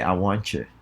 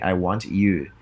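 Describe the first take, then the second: First: The T blends with you into CH. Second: A separate T sound comes before you. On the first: The speaker calls it right. "transform the T uh, into a C H before the word you" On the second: The speaker calls it wrong. "instead of saying I want you"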